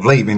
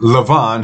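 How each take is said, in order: First: The middle consonant is a b sound. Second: The middle consonant is a v sound. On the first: This is the commonly used form of the name. The speaker calls it wrong. "who you call Laban" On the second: This is the original form of the name. The speaker calls it right. "His real name is Lavan"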